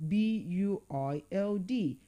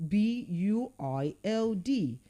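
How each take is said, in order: The two takes are said the same way.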